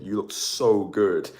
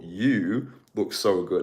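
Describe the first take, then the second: First: "so" leaned on, slow and drawn out; "You look so good" with the weight on "so"; stress on so. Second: "You" punched, the line slow and drawn out; emphasis on you. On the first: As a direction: lean on "so" rather than "you". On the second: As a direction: land hard on "You", then ease through "look so good". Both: Shown as a demonstration. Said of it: "I like to put emphasis on the word you as well".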